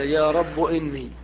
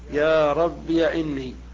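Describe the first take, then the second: First: The word rabb ends in a short u. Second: The word rabb ends in iya. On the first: "حذفها وضم آخر المنادى" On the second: "إثباتها مفتوحة"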